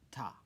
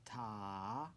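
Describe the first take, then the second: First: "ta" said briefly, on one beat; one quick falling "ta"; short single beat. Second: "Ta" drawn out over two beats; long sustained "Ta"; held half note. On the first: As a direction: cut "ta" short with no held vowel. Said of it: "we end with a ta". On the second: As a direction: stretch the vowel of "Ta" long, lifting at the end. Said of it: "Half note". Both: Shown as a demonstration.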